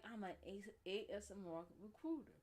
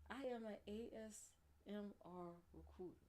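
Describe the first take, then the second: First: Said in the usual way. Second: Playful ASMR announcement. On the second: Pretend. Repeats line slowly, as ASMR recruiter.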